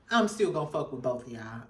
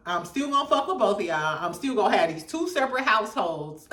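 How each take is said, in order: First: Smooth suave player. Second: Said in the usual way. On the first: Retold or imitated. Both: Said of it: "he said it in such a smooth, suave way".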